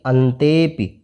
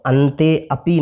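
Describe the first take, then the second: First: The 'a' vowel is dropped and the words run together. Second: The 'a' vowel is said fully as a separate word. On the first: The speaker calls it right. "इस तरह से पढ़ना है" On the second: The speaker calls it wrong. "नहीं पढ़ करके"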